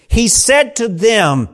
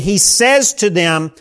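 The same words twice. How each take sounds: First: Said in the usual way. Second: Says given the weight, drawn out; stress on says. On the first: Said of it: "can actually be translated". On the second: Shown as a demonstration. A preacher showing the present tense in the verse, stressing says. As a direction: lean on the word says in he says to them. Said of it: "historical present tense".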